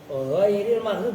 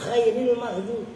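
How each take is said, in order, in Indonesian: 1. Kata pertama dimulai dengan ghain yang bersuara, dari tenggorokan. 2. Kata pertama dimulai dengan kha yang tak bersuara dan serak.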